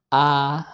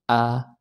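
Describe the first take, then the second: First: The vowel is opened extremely wide. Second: The vowel is opened only moderately. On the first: The speaker calls it wrong. "ini saya buka lebar-lebar mulut saya" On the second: The speaker calls it right. "ya sedang saja"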